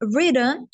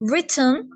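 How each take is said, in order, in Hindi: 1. यह American accent में बोला जाता है। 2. यह ब्रिटिश एक्सेंट में बोला जाता है। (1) "अमेरिकन एक्सेंट में" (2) "ब्रिटिश एक्सेंट में"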